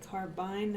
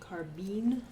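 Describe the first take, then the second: First: The last syllable has a long 'eye' vowel. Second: The last syllable has a different, non-'eye' vowel. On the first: "I say carbine" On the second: "and not carbine"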